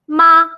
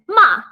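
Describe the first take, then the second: First: The syllable is said with the first tone. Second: The syllable is said with the fourth tone. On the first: It means mother. "with the first tone" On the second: It means to scold or to curse. "with the fourth tone"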